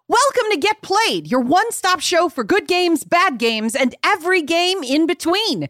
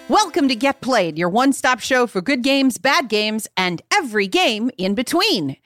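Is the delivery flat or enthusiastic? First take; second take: enthusiastic; flat. First: It is said with much enthusiasm. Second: It is said with little enthusiasm.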